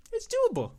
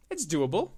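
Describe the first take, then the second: First: Squeaky high voice. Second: Said in the usual way. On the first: Shown as a demonstration. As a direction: jump way up into a thin falsetto.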